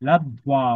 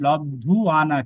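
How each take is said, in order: First: A quick 'w' glide follows the 'dh' sound. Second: A full 'u' vowel follows the 'dh' sound. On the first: The speaker calls it right. "কিন্তু লব্ধ্বা ওয়া" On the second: The speaker calls it wrong. "নন লব্ধু আনা"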